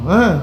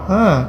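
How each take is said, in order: No difference in how they are said.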